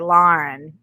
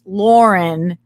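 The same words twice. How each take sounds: First: The name is said with a Boston accent. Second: The name is said the way most people say it.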